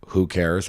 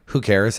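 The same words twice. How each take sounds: First: Easy, understated shrug of a line; genuine indifference. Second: Slightly lifted, pretend not to care; feigned indifference. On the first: Comparing attitudes to dating, genuine indifference. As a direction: let it drop, truly not bothered. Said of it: "truly it doesn't matter". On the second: Comparing attitudes to dating, feigned indifference. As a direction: brush it off while still caring inside. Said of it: "and then caring on the inside". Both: Shown as a demonstration.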